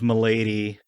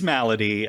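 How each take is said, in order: First: It is said like 'milady', with 'my' sounds. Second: It is said like 'malady', with 'mal' sounds. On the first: The speaker calls it wrong. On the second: The speaker calls it right.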